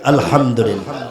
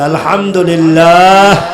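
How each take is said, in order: First: It is said at normal, softer volume. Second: It is said louder, with more force.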